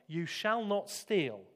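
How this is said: It is said sternly, like an order. It is a law that condemns him. "he had read the words in the tone of a command"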